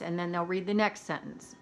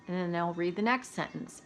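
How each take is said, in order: First: Mock dull audiobook reading, pitch dropping on "sentence"; falling sentence ends. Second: Plodding reader, dropping on "next sentence"; falling sentence ends again. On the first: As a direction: read it flat, letting "next sentence" sink down. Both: Shown as a demonstration. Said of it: "their voice will go down at the end of a sentence".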